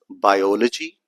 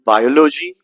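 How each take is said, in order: First: "biology" as bi-OL-ogy; stress on second syllable. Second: "biology" as BI-o-lo-gy; misplaced stress. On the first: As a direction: lean on the OL in "biology". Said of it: "Do you pronounce it as biology". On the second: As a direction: hit the first syllable of "biology". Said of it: "or anything like this?". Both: Shown as a demonstration.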